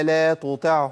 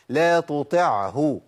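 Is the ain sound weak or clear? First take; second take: weak; clear. First: The ain sound is weak and nearly dropped. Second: The ain sound is fully and clearly pronounced. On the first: The speaker calls it wrong. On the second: The speaker calls it right.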